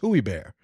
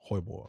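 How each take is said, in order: First: The name begins with a drawn-out 'hooey' sound. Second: The name begins with a single 'hoy' sound. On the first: The speaker calls it wrong. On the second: The speaker calls it right.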